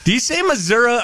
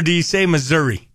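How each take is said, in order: First: "Missouri" said as "Missour-uh"; Missouri ending in -uh. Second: "Missouri" said as "Missour-ee"; Missouri ending in -ee. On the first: Host asks co-host which way he says it, "Missouri" ending in uh. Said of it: "Do you say Missouri or". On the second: Host offers co-host the other way, "Missouri" ending in ee. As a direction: end "Missouri" on a clear ee. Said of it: "or do you say Missouri". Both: Shown as a demonstration.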